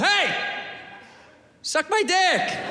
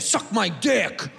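First: It is said in a nice, friendly way. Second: It is said in a hostile, negative way.

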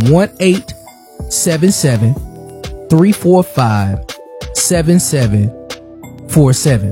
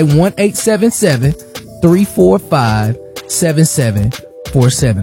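First: The number is said at a slower pace. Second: The number is said at a faster pace.

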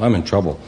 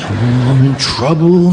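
First: It is said flatly, with little emotion. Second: It is said with strong, fearful emotion.

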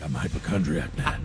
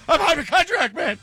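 First: It is said in a deep, guttural Batman voice. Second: It is said in a frantic, hysterical voice.

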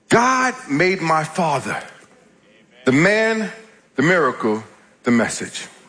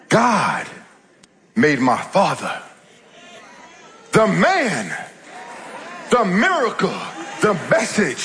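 First: It is said at a normal pace. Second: It is said slowly and deliberately.

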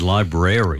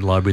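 First: It is said with an American accent, 'rary' in the middle. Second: It is said with a British accent, two syllables.

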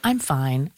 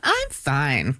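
First: It is said plainly and sincerely. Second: It is said in a sarcastic tone.

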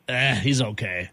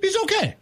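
First: It sounds unimpressed and dismissive. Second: It sounds warm and approving.

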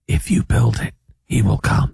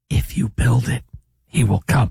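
First: It is a low, guttural whisper without power. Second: It is a sad, desperate-sounding whisper.

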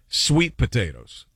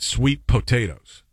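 First: The stress is on sweet. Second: The stress is on potatoes.

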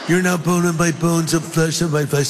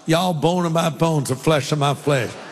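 First: It is said in a California accent. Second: It is said in a Southern accent.

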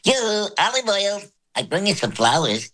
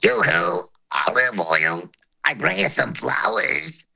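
First: It is said in a high voice. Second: High and low voices sound together.

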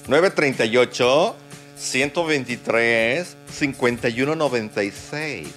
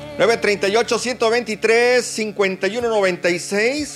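First: The number is said slowly. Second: The number is said quickly.

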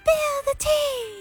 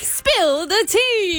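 First: It is said in a high-pitched voice. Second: It is said in her normal voice.

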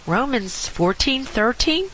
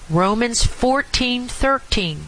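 First: The voice rises at the end. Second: The voice falls at the end.

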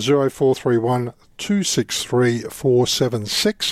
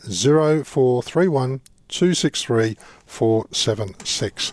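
First: The number is read quickly. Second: The number is read slowly.

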